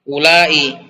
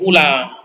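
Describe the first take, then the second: First: The final vowel is long, ending in a glottal stop. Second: The final vowel is short, with no glottal stop.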